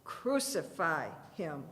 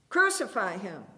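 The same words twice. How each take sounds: First: Chanted, slow, lower, mechanical Crucify him; chanted, drone it like a crowd with no mind left; mindless mob chant. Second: Loud crowd cry, hard on Crucify; thick-throated chorus. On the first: Chanted, the mob grinds out the demand, slow and dull. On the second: Crowd answering Pilate, a loud chanted demand. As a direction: roar it like a mob demanding death. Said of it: "came the thick-throated chorus". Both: A narrator's reading.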